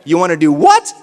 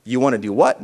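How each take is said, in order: First: Louder cue. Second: Said in the usual way. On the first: Shown as a demonstration. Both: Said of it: "Now I'm gonna say no".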